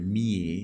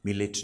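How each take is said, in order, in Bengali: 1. নামটি 'yeh' দিয়ে শেষ হয়, কোনো t নেই। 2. নামটির শেষে উচ্চারিত t আছে। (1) "ফরাসি উচ্চারণে মিয়ে" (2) "মিলেট নয়"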